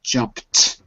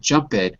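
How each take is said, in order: First: The word ends directly in a T sound. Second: The word ends with an extra unstressed syllable. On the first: The speaker calls it right. "but jumped with a T" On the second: The speaker calls it wrong. "it's not jump it"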